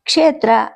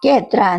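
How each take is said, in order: First: The word begins with a ksh cluster. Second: The word begins with a plain k. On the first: This is the standard pronunciation. "ಕ್ಷೇತ್ರ ಅನ್ನೋಕ್ಕೆ" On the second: This is how an outsider pronounces the word. "ಕೇತ್ರ ಅಂತಿರ್ತಾನೆ"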